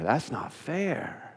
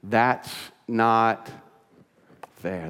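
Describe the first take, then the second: First: Quiet, slow, drawn-out "That's not fair"; soft, slow sulky complaint. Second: Said in the usual way. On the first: Shown as a demonstration. Preacher voicing the listener's grievance, soft and slow. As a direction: mutter it softly and slowly like a hurt child. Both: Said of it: "and what is that?".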